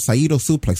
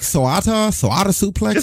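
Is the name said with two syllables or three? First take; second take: two; three. First: The name is said with two syllables. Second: The name is said with three syllables. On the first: The speaker calls it right. "I'm glad you pronounced it correctly" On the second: The speaker calls it wrong.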